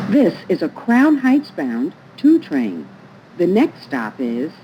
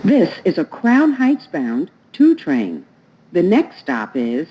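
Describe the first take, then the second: No difference in how they are said.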